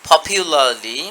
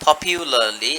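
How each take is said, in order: No difference in how they are said.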